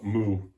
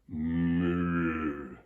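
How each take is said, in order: First: It is said in a light, casual voice. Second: It is said in a deep chest voice.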